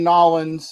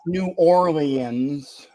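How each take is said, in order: First: The name is squeezed into two short syllables. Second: The name is said in full with every syllable. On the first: The speaker calls it right. "that is the correct pronunciation" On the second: The speaker calls it wrong. "it's not New Orleans"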